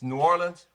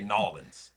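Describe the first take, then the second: First: The name is said in three full syllables. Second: The name is squeezed into two syllables. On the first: The speaker calls it right. "Don't do it. It's New Orleans" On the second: The speaker calls it wrong. "If you say Nolans, you know, no, no"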